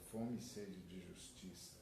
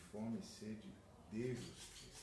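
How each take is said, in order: Both takes have the same delivery.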